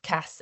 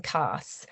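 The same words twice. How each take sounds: First: Cas with a short a; short vowel. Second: Cas with a long open a; long vowel. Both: Shown as a demonstration. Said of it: "reflected in the vowel length".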